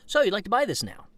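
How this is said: The voice falls at the end.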